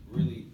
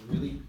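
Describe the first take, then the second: No difference in how they are said.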